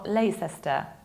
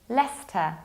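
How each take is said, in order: First: The middle 'ce' syllable is pronounced. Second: The middle 'ce' syllable is skipped. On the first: The speaker calls it wrong. "nor Leicester" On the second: The speaker calls it right. "This is Leicester"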